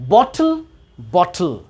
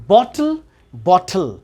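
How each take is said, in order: No difference in how they are said.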